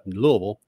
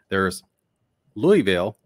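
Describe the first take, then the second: First: It is said the way locals say it. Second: It is said the way newscasters say it. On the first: The speaker is native to the area. "which is what most people native to the area call it" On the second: The speaker is a professional or reporter. "your reporters and your news people call it Louisville"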